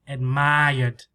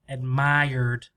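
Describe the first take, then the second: Both takes have the same delivery.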